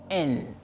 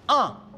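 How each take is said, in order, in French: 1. Le mot se prononce « en ». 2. Le mot se prononce « un ». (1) "no en" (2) "se pronuncia un"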